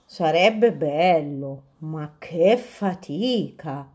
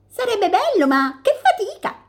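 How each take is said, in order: First: Drowsy dormice. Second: Much higher, chirpy bird voice; chirping robins. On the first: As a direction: yawn it out like sleepy dormice. Dormice reply sleepily. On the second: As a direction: twitter it like little robins. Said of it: "cinguettarono i pettirossi". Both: Acted.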